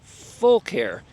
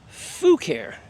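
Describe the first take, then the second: First: The first syllable is said with an L sound. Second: The first syllable is said without an L sound. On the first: The speaker calls it right. "the correct pronunciation is Full Care because they are full of care" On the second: The speaker calls it wrong. "A lot of people pronounce this"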